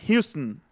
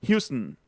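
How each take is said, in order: Both takes have the same delivery.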